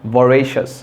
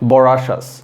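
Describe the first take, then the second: First: The second syllable is pronounced 're'. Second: The second syllable is pronounced 'ra'. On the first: The speaker calls it right. "এটার আসল উচ্চারণ হচ্ছে ভরেশাস ... মানে রে, not রা" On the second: The speaker calls it wrong. "অনেকে এটা pronounce করবেন হচ্ছে বরাশাস"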